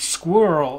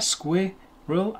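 First: The word is said with one syllable. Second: The word is said with two syllables. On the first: "Sounds to me like it's spelt with a German U umlaut, squirrel, all in one syllable" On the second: "there are two vowels there, squirrel, I-E, and it has two syllables"

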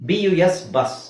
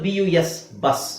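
The two takes are said the same way.

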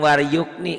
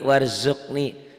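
First: The middle consonant is a y sound. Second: The middle consonant is a z sound. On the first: The speaker calls it wrong. "Jangan waryukni" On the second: The speaker calls it right. "Itu kan Z"

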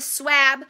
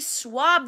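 First: The vowel after W is a short a. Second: The vowel after W is an ah sound. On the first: The speaker calls it wrong. "It's not a swab" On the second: The speaker calls it right. "we swab them"

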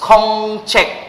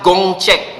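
First: The word begins with a k sound. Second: The word begins with a g sound. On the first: The speaker calls it right. "It's kongcheck" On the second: The speaker calls it wrong. "It's not gongcheck"

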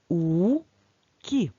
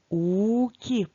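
First: It is read slowly, syllable by syllable. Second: It is read a little faster.

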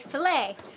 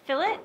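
First: The final t is silent, French-style ending. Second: The final t is clearly pronounced. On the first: The speaker calls it wrong. "Americans say fillet, but it's not French" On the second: The speaker calls it right. "Technically, the proper way to say it is fillet"

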